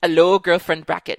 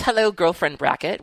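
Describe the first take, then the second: First: Put-on a Scottish try on "Hello, girlfriend bracket." that drifts Caribbean; badly faked Scottish, sliding toward Caribbean; bad Scottish accent. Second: Put-on a light Scottish accent on "Hello, girlfriend bracket."; lightly voiced Scottish greeting. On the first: Host's second try at a Scottish greeting, drifting Caribbean. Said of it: "That was bad. ... like, Caribbean". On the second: Host reading a listener's letter, light Scottish accent. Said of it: "Why did I start off being Scottish?".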